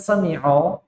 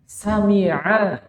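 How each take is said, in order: First: The final vowel is heavy and rounded, like o. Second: The final vowel is light and thin, like a. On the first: The speaker calls it wrong. "bukan sami'o" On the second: The speaker calls it right. "sami'a, bukan sami'o"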